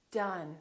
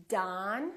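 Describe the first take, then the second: First: "done" as "duhn"; short relaxed uh in "done"; neutral uh vowel. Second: "Don" as "dahn", rising; long open "ah" in "Don"; tense ah vowel. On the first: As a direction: model "done" with lax vowel. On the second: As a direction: stretch "Don" for learners. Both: Shown as a demonstration. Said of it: "with ah and uh".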